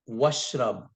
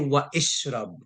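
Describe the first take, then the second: First: The initial vowel is dropped, words run together. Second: The initial vowel of ishrab is pronounced separately. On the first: The speaker calls it right. "I say washrab" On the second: The speaker calls it wrong. "I do not say wa ishrab. That's wrong"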